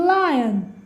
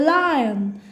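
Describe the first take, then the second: The two takes are said the same way.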